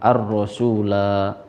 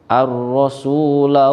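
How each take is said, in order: First: The final la vowel is held long. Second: The final la vowel is kept short. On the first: The reader stops at this word. "jika dibaca waqaf atau berhenti pada lafaz ar-rasula maka la-nya dibaca panjang" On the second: The word is joined to the next word. "ketika diwasolkan dengan waqalu maka la-nya dibaca pen, pendek"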